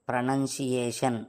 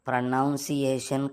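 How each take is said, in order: First: The second syllable sounds like 'nun'. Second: The second syllable sounds like 'noun'. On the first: The speaker calls it right. "ప్రనౌన్సియేషన్ కాదు" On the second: The speaker calls it wrong. "ఇంకో మాట తప్పుగా పలికావు"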